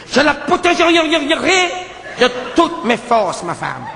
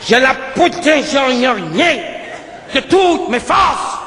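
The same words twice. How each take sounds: First: Slow, solemn hero vow; protecting hero. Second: Slow vow building to a shout on toutes; hero vow shout. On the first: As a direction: drag out each word like a grand oath. Hero declares protecting his wife. (serment solennel et lent) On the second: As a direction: start firm, then cry out de toutes mes forces. (serment qui monte jusqu'au cri sur « toutes ») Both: Retold or imitated.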